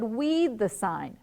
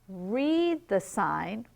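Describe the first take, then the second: First: The first word begins with a W sound. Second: The first word begins with an R sound. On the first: "he can't pronounce his R's" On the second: "instead of saying, read the sign"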